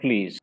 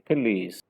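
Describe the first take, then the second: First: The 'p' and 'l' run together with no vowel. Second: A short schwa sits between the 'p' and 'l'. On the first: The speaker calls it wrong. "don't make it like a consonant cluster, then it become please" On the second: The speaker calls it right. "there is a schwa in between"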